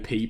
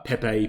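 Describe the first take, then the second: First: The name is said as one syllable. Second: The name is said with two syllables. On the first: The speaker calls it wrong. "I call it Peep" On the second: The speaker calls it right. "Apparently, it's Pepe or something like that"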